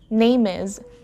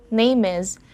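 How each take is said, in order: Both takes have the same delivery.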